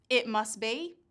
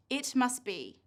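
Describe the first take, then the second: First: "It must be" with the t of "must" dropped; deleted sound. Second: "It must be" with the t of "must" sounded; full written sounds. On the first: Teacher testing learners' ears, t deleted. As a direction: say "must" as 'mus' before "be". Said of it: "Can you hear the t, d, or h". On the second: Teacher reading sentences to learners, every sound kept. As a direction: release the t in "must" before "be". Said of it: "Now look at these three sentences". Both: Shown as a demonstration.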